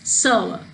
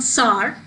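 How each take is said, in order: First: The vowel glides through three sounds in one syllable. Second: The vowel is one plain sound without gliding. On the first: The speaker calls it right. "it's sour" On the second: The speaker calls it wrong. "So it's not sour"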